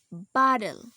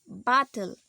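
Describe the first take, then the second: First: The middle t sounds like a soft d. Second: The middle t is a clear t sound. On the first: "The T becomes D" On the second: "We normally pronounce these words um something like this"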